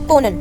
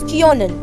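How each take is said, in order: First: The first vowel is a plain o sound. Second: The first vowel is a rounded ö sound. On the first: The speaker calls it wrong. "without the umlaut" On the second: The speaker calls it right. "with umlaut, so it becomes kionen. I mold the O little bit"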